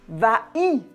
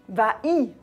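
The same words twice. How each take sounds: Both takes have the same delivery.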